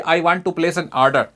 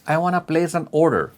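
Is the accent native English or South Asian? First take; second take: South Asian; native English. First: It is said with a South Asian accent. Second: It is said with a native English accent. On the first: The listener cannot understand what is meant. The speaker calls it wrong. "हमारे बहुत सारे दो देसी भाई हैं, phone करेंगे brand को बोलेंगे जी" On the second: The listener understands what is meant. The speaker calls it right. "ये होती है अंग्रेजी।"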